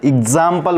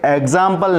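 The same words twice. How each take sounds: First: एग्जाम्पल said as "ig-zaam-pal"; teacher's corrected model of एग्जाम्पल; short I start. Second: एग्जाम्पल said with "eg" at the start; teacher showing the wrong एग्जाम्पल; mistaken E start. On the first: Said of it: "बोलते हैं". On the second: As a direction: open एग्जाम्पल on "eh" rather than "i". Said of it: "नहीं होता है". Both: Shown as a demonstration.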